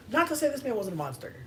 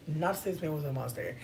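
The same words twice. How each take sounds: First: Said high and fast; high-pitched take. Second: Said in the usual way. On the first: Shown as a demonstration. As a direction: toss it off high. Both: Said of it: "repeated phrase".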